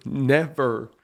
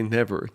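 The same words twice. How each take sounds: First: Never repeated and punched louder; stress on never. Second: Said in the usual way. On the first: Real, not acted. Scene: host insisting most parents never get that, stressed. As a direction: lean hard on the second never. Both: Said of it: "I don't like to say never".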